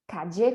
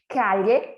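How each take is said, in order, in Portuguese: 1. O duplo L soa como 'dj'. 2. O duplo L soa como 'ly'. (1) "com som de D J" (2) "com som de L H"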